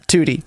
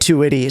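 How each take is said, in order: First: The name is said with two syllables. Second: The name is said with three syllables. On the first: This is how the owner says it. The speaker calls it right. "it's like the number two and then the letter T" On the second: This is how other people say it. The speaker calls it wrong. "everyone pronounces it like Too Witty"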